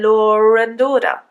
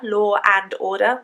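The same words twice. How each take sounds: First: An r sound links law to and. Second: The words are said without a linking r sound. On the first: The speaker calls it right. "We say" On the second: The speaker calls it wrong. "We don't actually say"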